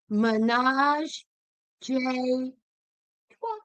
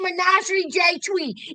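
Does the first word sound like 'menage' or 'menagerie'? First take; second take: menage; menagerie. First: The first word is 'menage', ending in 'trois'. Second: The first word is 'menagerie', ending in 'twee'. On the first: The speaker calls it right. "it's Menage J Trois" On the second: The speaker calls it wrong. "It ain't Menagerie J Twee"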